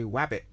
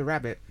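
First: Rabbit said as wabbit, r turned to w. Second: Said in the usual way. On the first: Shown as a demonstration. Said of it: "but we say wabbit". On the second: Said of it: "You say rabbit".

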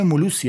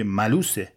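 First: "ملوسی" said molusi, with an o in the first syllable; Kermani pronunciation. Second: "ملوسه" said maluse, with an a in the first syllable; standard pronunciation. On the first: Drama student reading a play aloud, Kermani pronunciation of "ملوسی". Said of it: "اینم لهجهٔ کرمانی بود". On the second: Classmates correcting the Kermani speaker, standard pronunciation of "ملوسه". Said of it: "ملوس چیه دیگه؟". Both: Retold or imitated.

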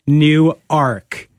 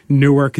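First: New Ark as two separate stressed words; correcting pronunciation. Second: Newark run together as one word, "NOO-erk"; usual pronunciation. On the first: Retold or imitated. Delaware locals correcting the host, New Ark in two drawn-out words. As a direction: split it cleanly, NEW... ARK. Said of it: "they're like". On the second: Shown as a demonstration. Host telling of a Delaware trip, Newark as one word. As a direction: say "Newark" with a reduced second syllable. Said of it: "when you go to Newark".

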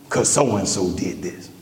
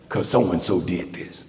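The two takes are said the same way.

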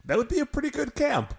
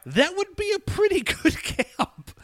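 First: High, wistful daydreaming tone; high wistful wonder; dreamy wistful. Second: High echo with a laugh breaking in; echoing the joke high and giggly. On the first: Real, not acted. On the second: Retold or imitated. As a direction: repeat it high, laughing mid-line.

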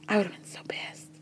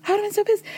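First: Voiceless whisper, much softer; emphatic whisper. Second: High-pitched exclamation. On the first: Podcaster imagining herself in his place, whispered. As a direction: drop to a whisper for effect. Stressing her own reaction for effect. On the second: Podcaster imagining herself in his place, high-pitched. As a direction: say it way up high for emphasis. Repeating her reaction for effect. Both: Real, not acted.

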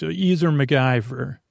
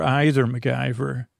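First: "either" said EE-ther, with a long ee sound; first of two ways to say "either"; EE-ther pronunciation. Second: "either" said EYE-ther, with an eye sound; the other way to say "either"; EYE-ther pronunciation. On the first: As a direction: say "either" as EE-ther and lift the end a little. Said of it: "or either MacGyver". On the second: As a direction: switch "either" to EYE-ther and let it fall. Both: Shown as a demonstration.

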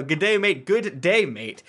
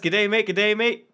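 First: Mock Aussie G'day again, higher; Australian accent retry. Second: Mock Australian G'day, higher; Australian accent. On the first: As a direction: try the Aussie greeting once more. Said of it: "all right, no". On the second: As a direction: ham up an Aussie greeting. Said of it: "Chantoria from Canada says".

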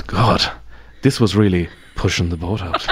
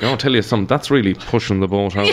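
First: Italic Irish understatement. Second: Head tilted, shoulder raised, knowing aside; mock-grave Irish italics, half laughing; dry understated Irish remark; wry Irish understatement. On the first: Retold or imitated. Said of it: "you read it in that voice". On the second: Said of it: "you say something like".

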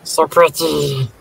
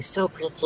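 First: Slow drawn-out creepy "So pretty"; creepy little voice. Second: A breathy creepy doll whisper-voice; the creepy little hand thing. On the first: Repeating the creepy line for friends, slow and eerie. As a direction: savour it like a creepy doll. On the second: Friends at a movie recap, mimicking creepy "so pretty". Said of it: "I do the, like, "So pretty" thing". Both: Retold or imitated.

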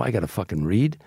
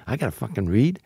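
First: Said in the usual way. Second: A hint of put-upon outrage in a changed voice; mock indignation. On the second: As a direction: repeat it as a wounded, insulted actor. Repeat of indignant reply, voice shifts.

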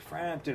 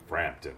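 First: High, drawn-out announcer call; ring announcer call. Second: Lower, falling second call of the name; second announcer call. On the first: Announcer calling a fighter's name, higher and ringing. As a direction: belt the name like ring introductions. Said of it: "you're like". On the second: Announcer's second name call, lower and settled. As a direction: drop the name down as the follow-up call. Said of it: "it's like". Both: Retold or imitated.

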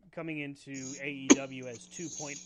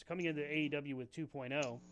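First: Talking through the hiccups; a hiccup breaking the sentence. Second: Said in the usual way. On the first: Real, not acted. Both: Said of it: "excuse me, I have the hiccups".

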